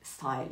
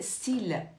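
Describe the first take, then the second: First: The word is pronounced the English way. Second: The word is pronounced the French way. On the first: The speaker calls it wrong. "ne dites jamais style. Non, style c'est anglais" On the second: The speaker calls it right. "la prononciation française c'est style"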